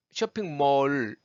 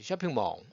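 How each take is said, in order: First: 쇼핑몰 with a held, full final L; wrong hard L. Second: 쇼핑몰 lower and softer, as "shopping maw"; English-style 쇼핑몰, L melted; correct shopping mall. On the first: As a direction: press the tongue into the L of 쇼핑몰. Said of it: "이렇게 안 했죠". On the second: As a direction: drop the hard L in 쇼핑몰. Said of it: "이렇게 하는 거죠". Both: Shown as a demonstration.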